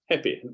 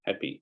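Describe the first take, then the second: First: The final vowel is a short, lax 'ih'. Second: The final vowel is a long, tense 'ee'. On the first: An older, posh style of speech. "this sort of posh, old-fashioned received pronunciation" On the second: A more modern, widespread style of speech. "So there's I to E change"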